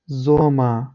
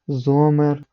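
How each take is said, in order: First: The final R sounds like a short A. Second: The final R is clearly pronounced. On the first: The speaker calls it right. "Правильно воно буде звучати без читання чіткого R" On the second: The speaker calls it wrong. "це неправильно читається"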